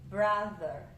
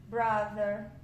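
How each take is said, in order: The two takes are said the same way.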